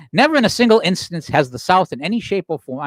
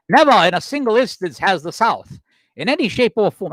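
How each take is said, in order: First: Said in the usual way. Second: Lightly put-on Southern accent; attempted Southern accent. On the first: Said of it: "I'm just gonna read it". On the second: Host quoting an 1860 Charleston newspaper, attempting a Southern accent. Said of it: "I can't do a Southern accent".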